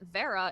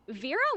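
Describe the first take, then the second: First: The first vowel is not a long e. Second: The first vowel is a long e sound. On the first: It is the Russian or Latin name. "but Vera is a Russian or Latin name" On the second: It is the Indian name. "Vera with like a very long e sound is an Indian name"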